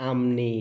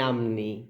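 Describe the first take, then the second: First: The middle consonant is an m sound. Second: The middle consonant is an m sound.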